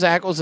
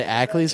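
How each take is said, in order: First: "Ackles" with a short -ulz ending. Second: "Ackles" with a long -leez ending. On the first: Agreeing on the actor's surname, Ackles said ACK-ulz. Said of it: "I thought it was Ackles". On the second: Quoting how other people say the surname, Ackles said ACK-leez. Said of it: "I've heard people say Ackles". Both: Shown as a demonstration.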